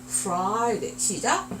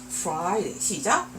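The two takes are said the same way.

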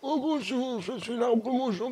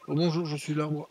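First: It is said in an old man's voice. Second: It is said in his normal voice.

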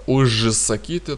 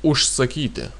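First: The prefix ends in a voiced zh sound. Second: The prefix ends in a voiceless sh sound. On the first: The speaker calls it wrong. "так не произносить" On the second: The speaker calls it right. "поэтому произносим ушсакити"

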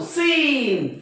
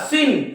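First: The vowel is long and drawn out. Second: The vowel is short and clipped. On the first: The speaker calls it right. "Double ईच्या उच्चार दीर्घ ई होतो" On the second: The speaker calls it wrong. "असं म्हणू नका"

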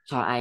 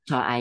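The two takes are said the same way.

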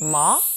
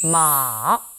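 First: The pitch rises quickly in a short sweep. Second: The pitch goes down slowly and long. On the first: "이성은요, 짧게 감아쳐 올라가는데요" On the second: "삼성은 쭉 길게 내려옵니다"

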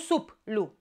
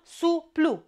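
First: The syllable break falls after the p. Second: The syllable break falls before the p. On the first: The speaker calls it wrong. "nu suplu" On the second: The speaker calls it right. "o să spun suplu"

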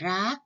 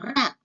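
First: The syllable is said with a high tone. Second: The syllable is said with a falling tone. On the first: "เป็นเสียงตรี" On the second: "เติมมาเอกเสียงเป็นเสียงโท"

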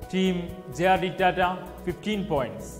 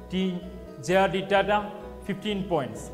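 Both takes have the same delivery.

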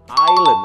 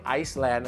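First: No s sound is heard after the first syllable. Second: An s sound is heard after the first syllable. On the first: The speaker calls it right. "แต่คำนี้คือไอแลนด์นั่นเองครับตัว S ไม่ออกเสียง" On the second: The speaker calls it wrong. "คำนี้ไม่ใช่ไอซ์แลนด์นะครับ"

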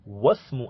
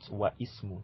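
First: The words merge, dropping the second word's first vowel. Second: The second word keeps its own first vowel. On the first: The speaker calls it right. "Wasmu and not wa ismu" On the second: The speaker calls it wrong. "and not wa ismu"

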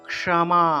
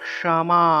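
Both takes have the same delivery.

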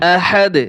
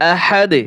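No difference in how they are said.

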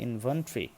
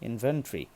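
Both takes have the same delivery.

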